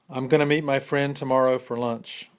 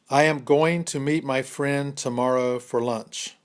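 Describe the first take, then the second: First: The sentence is spoken at a fast pace. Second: The sentence is spoken at a slow pace.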